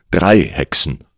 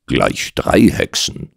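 First: Said in the usual way. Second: Slow mocking echo, "drei" lifted. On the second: Doctor pokes fun at the client's witches, mocking. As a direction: draw out "Gleich drei Hexen" in mild mockery. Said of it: "warf ich spöttisch ein".

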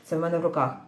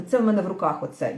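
First: Мене stressed, lower and falling. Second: Це stressed, falling tune at the end. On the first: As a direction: put the weight on мене. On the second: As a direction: lean on the word це. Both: Shown as a demonstration.

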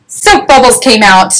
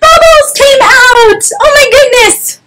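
First: Said in the usual way. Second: Hammed-up storyteller shock; astonished reveal. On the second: A narrator's reading. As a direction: squeal it out in mock amazement.

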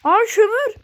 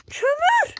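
First: Loud, high cry of delight at finding coal; excited shout. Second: Much higher, loud rising squeal; excited squeal. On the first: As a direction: shout it out with joy. Sudden find of coal in game. (kömür bulunca heyecanlı bağırış) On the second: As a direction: squeal the word kömür with glee. Repeats coal find, higher. (sevinçle tiz ciyaklama) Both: Real, not acted.

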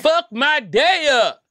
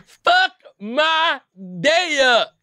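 First: High, slow, squeaky dare; stretched-out squeaky challenge; squeaky hype. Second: High squeaky repeat of the dare; even higher squeaky challenge; squeaky hype again. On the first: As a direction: squeal it out like a thrill-seeker's dare. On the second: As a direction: squeal the dare once more. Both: Real, not acted. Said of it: "don't think I heard anybody ever say some shit like that".

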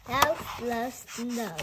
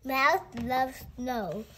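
First: "Mouse loves snow" said slowly and evenly, word by word; slow title read. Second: Said in the usual way. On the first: Shown as a demonstration.

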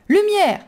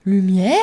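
First: High loud cry of the word Lumière; young woman cries out Lumière at Arthur. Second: Puzzled echo. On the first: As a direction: shout Lumière at him, pitched up. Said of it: "ajouta-t-elle en criant". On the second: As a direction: echo Lumière without understanding. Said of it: "répéta le jeune homme sans comprendre". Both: A narrator's reading.

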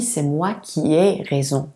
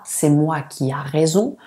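First: "ai" said as an E sound; corrected form. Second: "qui a" with an open A sound; incorrect form. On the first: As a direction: model "qui ai" with a clear E vowel. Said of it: "On dit". (forme correcte, « ai » prononcé È) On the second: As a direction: say "a" after "qui" as the faulty example. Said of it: "On ne dit pas". (forme fautive, « a » prononcé A) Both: Shown as a demonstration.

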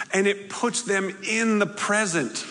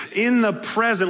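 First: Said in the usual way. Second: In the present with in punched, higher and louder; pun on present. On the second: Shown as a demonstration. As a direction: lean on in to land the pun on present. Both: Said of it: "Get it?".

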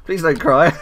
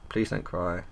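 First: Loud, high, jokey plea; mock pleading. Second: Said in the usual way. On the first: To a girl who's crying, mock pleading. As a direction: plead it loudly, pitched up. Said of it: "to a girl who's crying". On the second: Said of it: "That's what I say, like, to a girl who's crying".

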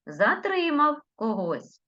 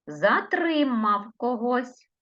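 First: Затримав когось high, stress on Затримав; Затримав said high and clear; stressed dictation. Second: Затримав когось slowly, Затримав stressed; Затримав said slowly and carefully; slow dictation. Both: Shown as a demonstration. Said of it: "я по-різному називала слова".

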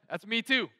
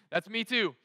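No difference in how they are said.

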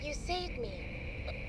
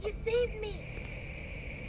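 First: Low, dragged-out copy; slow eerie mimic voice. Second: Slow eerie mimic voice. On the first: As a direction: echo the words slowly and deeper. Mimic repeats lower and slower.

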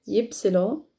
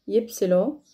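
No difference in how they are said.

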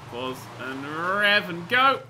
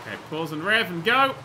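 First: Slow, drawn out. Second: Said in the usual way. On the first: Shown as a demonstration. Gamer coaching self up the slope, slow and drawn out. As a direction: stretch each word, rising into GO.

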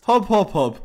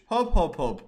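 First: Bouncy hop sounds. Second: Said in the usual way. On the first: Pretend. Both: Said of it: "repeated bouncing sound".

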